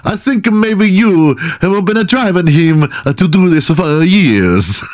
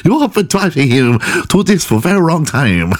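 First: High, slowish hammed-up Italian; mock Italian accent. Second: Put-on high-pitched caricature Asian accent; mock Asian accent. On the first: Fake therapist blaming the cheated-on girlfriend, mock Italian accent. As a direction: lay on a badly faked Italian accent. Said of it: "I'm going Italian". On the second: Fake therapist blaming the cheated-on girlfriend, mock Asian accent. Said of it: "I'm going Asian".

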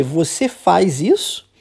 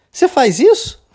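First: Said in the usual way. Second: High-pitched mocking question, swooping up at the end; teasing. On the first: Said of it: "E ela quer dizer". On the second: Friend making fun of her pal, teasing high question. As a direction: poke fun with an exaggerated rising question. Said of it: "zoando com a cara dela".

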